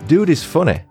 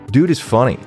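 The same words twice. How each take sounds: First: It is read in the speaker's usual accent. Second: It is read in a put-on American accent.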